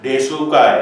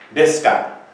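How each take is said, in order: First: The u after the s is fully pronounced. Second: The u after the s is dropped. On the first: The speaker calls it wrong. "tapi kita tidak baca desuka ya" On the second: The speaker calls it right. "u ini walaupun dia juga vokal, dia akan hilang"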